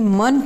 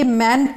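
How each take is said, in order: First: The syllable has a reduced schwa vowel. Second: The syllable has a full 'e' vowel. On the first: The speaker calls it right. "मंट होता है" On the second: The speaker calls it wrong. "ये मेंट नहीं"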